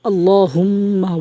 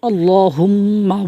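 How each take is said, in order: Both takes have the same delivery.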